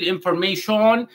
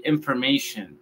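First: "information" as "in-for-mei-SHON", rising full O; wrong Spanish-style pronunciation. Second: "information" as "in-fer-MEI-shen", softer falling end; correct English pronunciation. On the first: Teacher rejects the mistake, mispronounced. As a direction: give "information" a heavy final "shon". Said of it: "no vamos a decir information". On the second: Teacher models the word for learners, correctly pronounced. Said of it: "vamos a decir information". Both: Shown as a demonstration.

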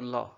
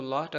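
First: लॉट said as लॉ; dropped final T. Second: Said in the usual way. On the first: Shown as a demonstration. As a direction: stop लॉ before any T is heard. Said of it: "अगर अकेला ना हो तो लॉ". (लॉट बिना टी के, लॉ) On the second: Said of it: "अकेला हो तो लॉट".

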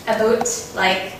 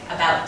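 First: "about" said as /əboʊt/, long O like "a-boat"; North Dakota about. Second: Said in the usual way. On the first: Shown as a demonstration. Teacher showing the North Dakota "about", long O vowel. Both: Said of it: "we pronounce some things different".

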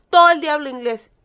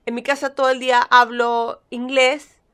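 First: "todo el día hablo inglés" repeated louder and faster, stress on "todo"; emphatic repeat. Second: Said in the usual way. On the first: Shown as a demonstration. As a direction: hammer home "todo", quicker.

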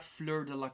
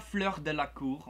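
First: Said in the usual way. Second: Fleur de la Cour with French throaty r's; "Fleur de la Cour en français" pronounced the French way; French pronunciation. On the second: Shown as a demonstration. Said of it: "en français".

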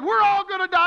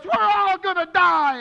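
First: Higher, louder retold panic; panicked cry. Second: Loud, slow, high wail of panic; panicked cry. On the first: Pastor retelling Mason panicking on the plane, high loud wail. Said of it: "He did". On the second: Retold or imitated. Mason panicking on the plane, loud slow high wail. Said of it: "And Mason goes".

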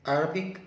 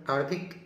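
No difference in how they are said.

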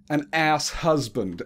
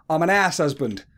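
First: Slow, puzzled echo of "ass husband"; imitated bafflement at an accent; Rich Hall. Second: Imitated Essex accent, "house" said as "ass"; quick Essex-accented "ass husband". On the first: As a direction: repeat "ass husband" slowly as if not understanding. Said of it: "and Rich Hall went". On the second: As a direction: mimic an Essex man dropping his h's. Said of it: "because of his Essex accent, he went".

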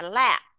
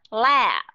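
First: "la" brief, lips shut on a silent p; short vowel, closed ending. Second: "La" long and louder, lips closing into b; long vowel, closed ending. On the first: Teacher testing whether class hears closed mouth, short ending. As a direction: cut "la" short by closing the mouth. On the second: Teacher testing whether class hears closed mouth, long ending. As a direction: draw out "La", then close the mouth. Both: Shown as a demonstration. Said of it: "mở miệng hay là đóng miệng".

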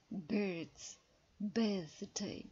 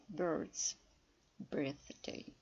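First: "Birds", "Birthday" with the er vowel, not yo; careful birds. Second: "Birds", "Birthday" with the vowel pulled back and deeper. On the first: Teacher shows how to say "Birds" correctly. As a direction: stretch the er sound in "Birds" and "Birthday". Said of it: "Зверніть увагу на промовляння слова birds". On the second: Teacher shows deeper way to say "Birds". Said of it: "можна промовити більш глибоко, поставивши язик". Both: Shown as a demonstration.

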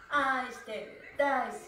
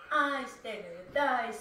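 The two takes are said the same way.

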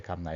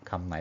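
The two takes are said the same way.

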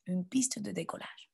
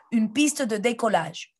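First: Soft, hushed repeat; quiet. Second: Said in the usual way. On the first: Shown as a demonstration. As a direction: drop to a hush for the echo. (à voix basse) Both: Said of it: "Répétez".

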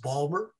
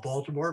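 First: "Balmer" said in two syllables for Baltimore; local Maryland pronunciation. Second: Said in the usual way. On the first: Shown as a demonstration. Passing on a Maryland roommate's tip, "Balmer" in two syllables. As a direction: squash Baltimore down to "Balmer", dropping the middle. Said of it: "it's actually properly pronounced Balmer". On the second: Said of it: "Some people call it Baltimore".

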